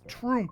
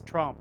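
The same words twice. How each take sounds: First: The vowel sounds like 'oo'. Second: The vowel sounds like 'ah'. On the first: The speaker calls it wrong. "if you use the letter U, then it's Trump" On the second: The speaker calls it right. "has to be an A, so it comes out as Trump"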